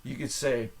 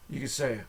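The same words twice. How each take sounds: The two takes are said the same way.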